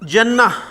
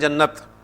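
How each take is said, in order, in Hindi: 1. यह शब्द स्वर पर खत्म होता है, अंत में त नहीं। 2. यह शब्द साफ़ त की आवाज़ पर खत्म होता है। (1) "लेकिन अरबी में क्योंकि गोलता" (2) "आमतौर पर हम इसे उर्दू में लंबी ता के साथ बोलते हैं"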